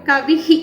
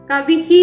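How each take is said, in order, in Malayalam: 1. അവസാന h-ന് പൂർണ്ണമായ സ്വരപ്രതിധ്വനിയുണ്ട്. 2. അവസാന h-ന് പൂർണ്ണമായ സ്വരപ്രതിധ്വനിയുണ്ട്.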